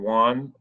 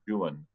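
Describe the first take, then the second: First: The name is pronounced the usual modern way. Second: The name is pronounced the old British way. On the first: This is how people say it today. "we would say Don Juan" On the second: This is how the British said it in the 1800s. "the British in the eighteen hundreds pronounced it Juan"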